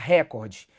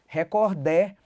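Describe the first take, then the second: First: The stress is on the first syllable. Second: The stress is on the last syllable. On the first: "Se a sílaba tônica estivesse aqui, ela seria proparoxítona" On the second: "Se ela fosse oxítona"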